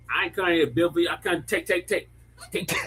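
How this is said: It is said in a put-on African accent.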